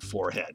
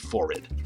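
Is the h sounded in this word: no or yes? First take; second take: yes; no. First: The h is sounded, following the spelling. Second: The h is silent, rhyming with horrid. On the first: This is the newer pronunciation. "no one would have said forehead" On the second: This is the older pronunciation. "It would all be forehead"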